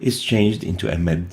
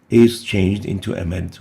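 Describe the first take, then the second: The two takes are said the same way.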